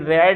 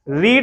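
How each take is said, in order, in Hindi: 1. स्वर छोटा है, 'red' जैसा। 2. स्वर लंबा है, 'reed' जैसा। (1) "लेकिन ये रेड है" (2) "रीड नहीं है ये"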